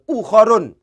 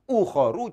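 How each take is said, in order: First: The word ends with an added n sound. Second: The word ends on a vowel without n. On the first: The speaker calls it wrong. "jangan ukhorun" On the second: The speaker calls it right. "bacanya adalah ukhoru"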